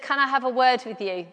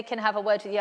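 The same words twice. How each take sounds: First: Said in the usual way. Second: Lower, softer, ominous "Can I have a word with you?"; a hint of dread under the teacher's words; ominous teacher's request. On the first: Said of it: "but the teacher said". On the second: Mother recalling the dreaded teacher summons, softly ominous. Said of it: "when they say".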